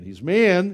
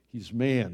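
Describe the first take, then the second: First: "man" said higher and louder, punched; emphatic repeat. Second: Said in the usual way. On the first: Shown as a demonstration. Preacher insisting to the congregation Jesus is truly man, stressing "man". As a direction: hammer the word "man" the second time.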